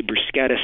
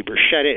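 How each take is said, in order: First: Bruschetta said broo-SKET-uh, the Italian way; hard-sk pronunciation. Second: Bruschetta said broo-SHET-uh, the anglicized way; soft-sh pronunciation. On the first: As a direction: give bruschetta a k sound after the s. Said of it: "some people who say bruschetta". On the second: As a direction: give bruschetta a sh sound, no k. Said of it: "say bruschetta is wrong". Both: Shown as a demonstration.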